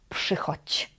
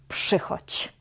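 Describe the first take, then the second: The two takes are said the same way.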